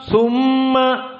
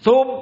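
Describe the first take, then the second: First: The m is held long and nasal. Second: The m is cut off with no nasality. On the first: The speaker calls it right. "harus dua harokat dan harus ngirung" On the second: The speaker calls it wrong. "kita tutup hidung, tidak ngirung, terputus"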